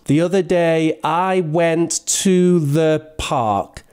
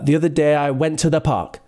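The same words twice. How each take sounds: First: It is said slowly, in separate chunks. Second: It is said quickly, in one smooth run. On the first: "So I might ask them to say it" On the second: "they just kind of say it faster"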